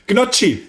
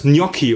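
First: Gnocchi said GNOT-chee, hard g and tsch; Swabian pronunciation. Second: Gnocchi said NYOH-kee, Italian gn; Italian pronunciation. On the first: Retold or imitated. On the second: Shown as a demonstration. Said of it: "Wie spricht man's richtig aus?".

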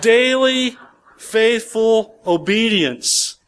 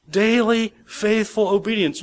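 First: "Daily, faithful obedience" stretched out slowly, louder and higher; slow emphatic. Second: Said in the usual way. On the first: Shown as a demonstration. Preacher drilling the congregation on obedience, slow and emphatic. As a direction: lean hard on "faithful" and draw out "obedience".

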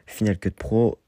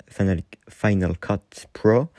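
First: Final Cut Pro said the French way, "Final" as fi-NAL; plain French "Final Cut Pro", no English sounds; French pronunciation. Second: Final Cut Pro said the English way, "Final" as FAI-nal; stumbling English "Final Cut Pro"; English pronunciation. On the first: Shown as a demonstration. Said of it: "je le dis en français". (prononcé à la française, « fi-nal cut pro ») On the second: Real, not acted. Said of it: "mon accent était éclaté". (prononcé à l'anglaise, "Final" dit « faïnal »)

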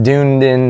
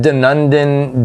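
First: Dunedin as DOON-din, two syllables; second guess at Dunedin, said "doon-din"; alternative mispronunciation. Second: Dunedin as duh-NUN-din, unsure; tentative mispronunciation. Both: Shown as a demonstration. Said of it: "how do you say it?".

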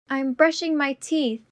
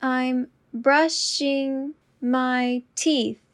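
First: Said in the usual way. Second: Slow and deliberate. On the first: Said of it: "repetition drill, normal take". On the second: Shown as a demonstration. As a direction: say it slowly and clearly. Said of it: "repetition drill, slowed take".

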